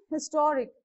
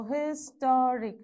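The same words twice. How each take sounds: First: Said in the usual way. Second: "historic" slowly split into syllables. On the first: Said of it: "Next one". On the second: Shown as a demonstration. Teacher locating the stressed syllable, "historic" slowly sounded out. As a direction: break "historic" into slow, separate beats. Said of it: "rule follows from the end".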